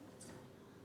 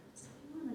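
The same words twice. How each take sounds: First: Hushed whisper to a neighbour; whispered gossip. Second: Soft, higher murmur to a neighbour; murmured question. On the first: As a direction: breathe it under your breath. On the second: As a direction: relatives nudging each other, murmuring quietly. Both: Acted. People nudging each other.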